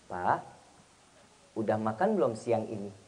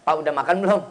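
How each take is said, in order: First: Soft, low, tender question; gentle wife. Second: Mildly curt, low-pitched question; curt wife. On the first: Wife checking on husband's lunch, gently and softly. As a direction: ask lovingly in a hushed low voice. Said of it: "Tergantung intonasi, nada". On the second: Wife asking husband about his meal, mildly curt. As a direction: fire off a bare question, no tenderness. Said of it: "Kalau nada seorang istrinya judes". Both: Acted.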